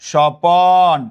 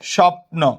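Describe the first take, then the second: First: An extra vowel separates the p and n. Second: The p and n form a cluster, no vowel. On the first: "স্বপ্ন থেকে বললাম স্বপন" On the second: "আমরা যদি এরকম বলি স্বপ্ন"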